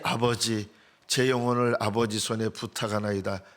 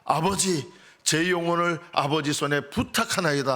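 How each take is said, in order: First: It is said weakly, with little strength. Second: It is said loudly, with strong force. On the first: A dying man fading away in exhaustion. The speaker calls it wrong. "힘없이" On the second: A cry of victory. The speaker calls it right. "큰 소리로"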